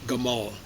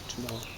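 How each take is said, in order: First: The name begins with a hard G sound. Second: The name begins with a J sound. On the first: This keeps the original older pronunciation. "They still preserve that pronunciation in Gamal" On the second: This is how most speakers say it. "Most Arabs say Jamal"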